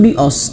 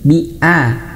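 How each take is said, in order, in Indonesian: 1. Vokal setelah b terdengar tebal, seperti o. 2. Vokal setelah b terdengar tipis, seperti a. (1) "Jangan bios" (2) "tapi bi a"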